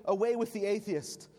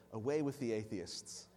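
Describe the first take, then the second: First: Raised and higher, a commanding call; proconsul's demand. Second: Softer, lower, with a laugh in it; ironic laugh. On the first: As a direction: order him to denounce them. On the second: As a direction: toss the words back with amusement. Polycarp turns the words around. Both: Acted.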